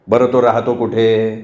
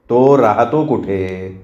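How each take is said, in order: First: Said in the usual way. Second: Each word slow, weight on तो; slow insistent repeat. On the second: Acted. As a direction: slowly press the question home a second time. Father repeats unanswered question. (तो राहतो कुठे, सावकाश ठासून)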